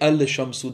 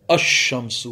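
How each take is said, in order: First: The 'l' sound is pronounced before 'shamsu'. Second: The 'l' merges into a doubled 'sh' sound. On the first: The speaker calls it wrong. "You don't say al shamsu" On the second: The speaker calls it right. "It becomes ash shamsu"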